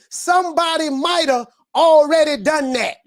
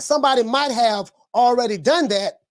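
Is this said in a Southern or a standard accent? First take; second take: Southern; standard. First: It is said in a Southern country accent. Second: It is said in a standard, non-Southern accent. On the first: "We say" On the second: "instead of saying somebody might have already done that, we don't say that down here"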